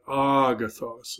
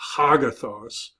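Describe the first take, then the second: First: The word begins without an H sound. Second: The word begins with an H sound. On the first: The speaker calls it right. "a smooth reading means there's no H sound" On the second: The speaker calls it wrong. "not hagathos"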